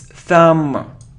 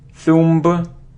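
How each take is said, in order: First: No b sound is heard at the end. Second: A b sound is heard at the end. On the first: The speaker calls it right. "it's thumb, thumb. So we don't pronounce B" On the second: The speaker calls it wrong. "It isn't thumb"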